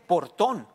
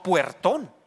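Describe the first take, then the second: First: "portón" stretched out, plain O in por-TON; correcting to portón. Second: "puertón" with a WE glide, pwer-TON; rejected form puertón. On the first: Preacher correcting people's speech, "portón" drawn out with por, not pwer. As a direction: say "portón" very slowly with a pure first O. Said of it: "se dice portón". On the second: Preacher naming the error to avoid, "puertón" said firmly with pwer. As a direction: hit "puertón" as the mistake, pwer in front. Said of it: "no puertón". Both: Shown as a demonstration.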